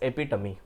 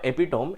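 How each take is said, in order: First: The word ends in an 'ee' sound. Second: The word ends in an 'ohm' sound. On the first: The speaker calls it right. "It is actually pronounced as ఎపిటమీ" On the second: The speaker calls it wrong. "It is not ఎపిటోమ్"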